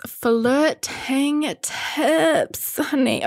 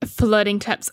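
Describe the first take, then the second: First: High, slow, sassy drawl on "Flirting tips"; mock-diva "honey" to viewers. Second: Said in the usual way.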